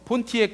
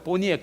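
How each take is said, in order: First: The middle t sound is clearly pronounced. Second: The middle t sound is dropped entirely. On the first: "미국에서는 어, 폰티엑 그러지 않고" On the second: "포니엑 그러죠"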